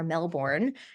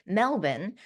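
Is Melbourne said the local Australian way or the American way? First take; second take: American; Australian. First: It is said in an American pronunciation. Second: It is said in a local Australian pronunciation.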